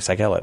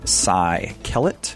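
First: The name is said quickly, run together. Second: The name is said slowly and clearly. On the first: The speaker calls it wrong. "if you say it really quickly on the radio" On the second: The speaker calls it right. "You notice how I'm saying things slower? ... like the phone number and my name"

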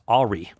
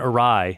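First: It is said as two syllables, 'ah-ree'. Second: It is said as 'uh-rye', ending in 'rye'. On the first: The speaker calls it wrong. "I used to think that the word A-W-R-Y was pronounced Ari" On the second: The speaker calls it right. "But I had gone awry in my pronunciations"

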